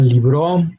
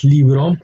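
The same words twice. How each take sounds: First: "libro" stressed on the last syllable, li-BRO; "libro" mis-stressed as libró; wrong final stress. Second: "libro" stressed on the first syllable, LI-bro; "libro" with a strong LI, lighter bro; correct penultimate stress. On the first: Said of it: "it's not libro". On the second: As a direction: lean on li in "libro". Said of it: "emphasis on the second to last syllable". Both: Shown as a demonstration.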